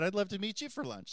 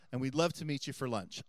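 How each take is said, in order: First: Pitched up, keen and eager; eager reply. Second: Said in the usual way. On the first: Retold or imitated. Priest eagerly accepting his friends' lunch invitation, pitched up. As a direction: jump at the invitation happily. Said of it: "I said". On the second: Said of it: "They said".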